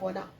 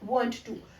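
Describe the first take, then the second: First: The two words blend into one reduced word. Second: Both words are said fully and with emphasis. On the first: "advance English की जब बात करते हैं" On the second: "जिनको कि हम बहुत ही एम्फेसाइज करके बोल रहे थे"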